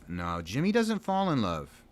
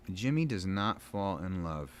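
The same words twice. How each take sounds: First: Doesn't punched higher and louder; stress on doesn't. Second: Does not spelled out, each word weighted; stress on does not. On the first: Correcting himself to a friend, stress on doesn't. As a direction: hit the word doesn't hard. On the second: Setting the record straight about Jimmy, stressing does not. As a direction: split does not and lean on not. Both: Shown as a demonstration.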